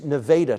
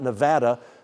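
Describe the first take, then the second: First: The name is said the local Texas way. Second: The name is said the usual way. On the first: It names the town in Texas. The speaker calls it right. "It's Nevada, Texas" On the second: It names the state. The speaker calls it wrong. "it's not Nevada, uh, Texas"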